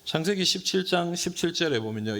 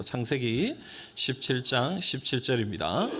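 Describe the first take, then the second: First: Said in the usual way. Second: Slow it down so the congregation can follow; slow reading pace. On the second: Shown as a demonstration. Pastor leading the congregation in reading, slowly. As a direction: read "창세기 십칠 장 십칠 절입니다" slowly, word by word, with a rise. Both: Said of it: "우리 같이 한번 읽어봅시다".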